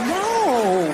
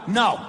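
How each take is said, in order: First: It sounds playful and teasing. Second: It sounds firm and serious.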